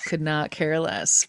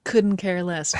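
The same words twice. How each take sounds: First: "Could not care less" slowed, every word spelled out; "Could not care less" drawn out for emphasis; emphatic repeat. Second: Said in the usual way. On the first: Real, not acted. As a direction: lean on "not" and "care", slowly and flatly.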